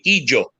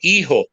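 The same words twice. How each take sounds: First: It is said with a Ladino pronunciation. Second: It is said with a Spanish pronunciation. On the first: "and you say hijo, hija in, in Ladino" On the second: "you say hijo, hija in, in Spanish"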